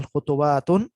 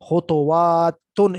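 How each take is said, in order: First: Said in the usual way. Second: خطواتن very slow and louder, every syllable stretched; خطواتن stretched, ending in ن; slow emphatic reading. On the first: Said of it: "پڑھ لیں ابھی فی الحال". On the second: Shown as a demonstration. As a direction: sound out خطواتن slowly and firmly. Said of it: "اس کو بہرحال پڑھ لیں".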